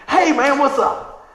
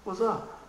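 First: Big, bright hey man; loud greeting to strangers; loud friendly greeting. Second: A softer, laid-back what's up; guys in the lot replying coolly. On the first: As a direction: call out warmly across the lot. Greeting guys at the mall. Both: Retold or imitated.

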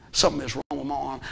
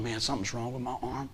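First: Said in the usual way. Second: Muttered worry. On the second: Retold or imitated.

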